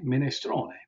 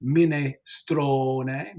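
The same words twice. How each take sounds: First: Said in the usual way. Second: Very slow minestrone, STRO stretched out; second-to-last syllable stressed. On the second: Shown as a demonstration. Teacher showing where it's accented, minestrone with STRO drawn out. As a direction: hold the STRO in minestrone, mee-neh-STROOO-neh. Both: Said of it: "It's accented there".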